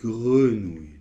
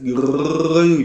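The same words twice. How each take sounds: First: The R is said lightly, without rolling. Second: The R is exaggerated and almost rolled. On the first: The speaker calls it right. "Mais normalement, non. C'est greux" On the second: The speaker calls it wrong. "on peut l'exagérer en le roulant presque"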